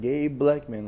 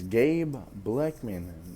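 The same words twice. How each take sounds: First: The two names are run together as one word. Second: The two names are said as separate words. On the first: The speaker calls it wrong. "like all in one" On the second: The speaker calls it right. "That's two words"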